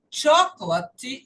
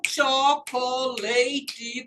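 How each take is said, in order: First: Chocolate in three parts, CHOC-luh-t; three-syllable chocolate. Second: Chocolate drawn out as CHO-co-LAY-tee; mispronounced chocolate. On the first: Teacher shows students the English word, chocolate in three syllables. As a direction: squeeze chocolate into three syllables, stress first. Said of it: "em três partes". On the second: Teacher mimics common learner mistake, chocolate with long LAY. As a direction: slowly give chocolate four full parts with a long LAY. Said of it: "E não chocolate, como eu escuto em maioria". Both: Shown as a demonstration.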